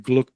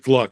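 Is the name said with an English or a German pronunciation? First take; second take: German; English. First: The name is said with a German pronunciation. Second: The name is said with an English pronunciation. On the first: "I think in German it would be Gluck" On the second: "I think I pronounce it Gluck"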